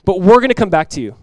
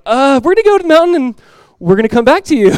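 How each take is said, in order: First: Firm, louder declaration; bold faith. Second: High, loud, put-on fibbing voice; mock lying. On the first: Retold or imitated. Abraham assuring his two men, bold faith. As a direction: declare it boldly, with confidence. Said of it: "What bold, powerful faith". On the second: Abraham supposedly fibbing to his men, mock lying. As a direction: stall on a drawn "uh", then fib unconvincingly. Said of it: "like, lying? Just like".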